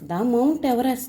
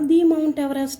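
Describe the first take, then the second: First: 'The' is said with a short 'thuh' sound. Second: 'The' is said with a long 'thee' sound. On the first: The speaker calls it right. "ఇక్కడ ద మౌంట్ Everest అంటారు" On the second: The speaker calls it wrong. "ది మౌంట్ Everest అంటామా?"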